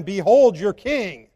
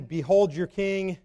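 First: Slow, louder, earnest presentation of a king; slow sincere announcement, louder; sincere proclamation. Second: Sarcastic. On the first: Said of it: "if he was believing now". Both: Pretend.

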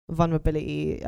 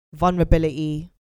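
First: Said in the usual way. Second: "vulnerability" said louder and firmly; stressed vulnerability. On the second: Shown as a demonstration. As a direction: lean into "vulnerability" with emphasis. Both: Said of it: "I have to say that twice".

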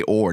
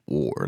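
First: Said in the usual way. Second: "or" dropped low and leaned on; "or" pitched down with a heavy r; rapper-style "or". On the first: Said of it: "when they rap and they say". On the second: Shown as a demonstration. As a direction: say "or" as a low, hard rapper ending. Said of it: "they go".

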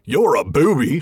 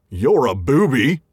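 First: Straight-faced troll insult; a deadpan troll insult. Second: Slow troll insult on the edge of laughter; troll insult, close to giggling. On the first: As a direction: keep a straight face this time. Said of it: "Let me try that again". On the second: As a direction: try to say it straight but nearly crack up. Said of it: "I would say that with a straight face and not laugh, and I didn't". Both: Acted.

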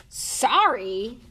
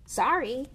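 First: Loud, higher bark of disbelief; indignant bark. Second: Quick apology, voice lifted higher. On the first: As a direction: bark it back in outrage. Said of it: "barked Hagrid". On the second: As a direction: blurt a short, louder sorry. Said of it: "Harry said quickly". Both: A narrator's reading.

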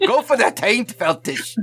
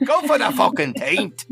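First: A talking sword's Scottish brogue, urging; Scottish brogue egging on. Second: Scottish brogue pushed higher, egging harder; Scottish brogue shout. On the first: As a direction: urge him on in a rough Scottish brogue. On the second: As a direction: press him in a hammed Scottish brogue, higher. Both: Acted. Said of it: "his Scottish accent's terrible".

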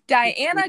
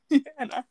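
First: "Diana" loud and drawn out as die-ANN-a; emphatic, slow "Diana", opening on die; corrected pronunciation. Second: "Diana" slipped out as dee-ANN-a; "Diana" with dee for die; slip of the tongue. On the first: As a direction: stretch out "Diana" with a clear DIE. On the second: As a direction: misspeak "Diana" as Deanna. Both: Real, not acted. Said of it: "I said Deanna and not Diana".

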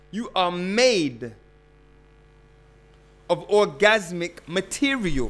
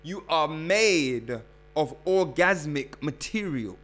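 First: "made" drawn out slowly and pressed hard, then "orgasmic material" firm; slow emphatic repeat. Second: Said in the usual way. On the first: Shown as a demonstration. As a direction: hammer it home slowly on request. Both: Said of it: "One more time".

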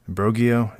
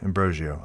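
First: "Ambrogio" with a hard g, as am-BRO-gee-oh; "Ambrogio" tried with hard g; trying a pronunciation. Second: "Ambrogio" softened to zh; chosen pronunciation. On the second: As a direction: say "Ambrogio" with a zh sound. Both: Shown as a demonstration. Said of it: "I'm gonna say Ambrogio".

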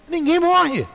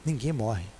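First: High, loud emphatic declaration; enfático e alto. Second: Soft, low murmured repeat; quiet and low. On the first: Emphatic repetition of the statement. (afirmação alta e enfática) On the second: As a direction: drop low and almost whisper it. Soft repetition after pause. (repetição baixa e grave) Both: Real, not acted.

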